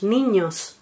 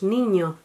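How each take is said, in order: First: The final s is clearly pronounced. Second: The final s is breathed away. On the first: "nosotros no decimos niños" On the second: "la aspiración de la S implosiva... decimos niño"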